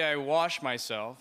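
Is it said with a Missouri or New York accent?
New York. It is said with a New York accent.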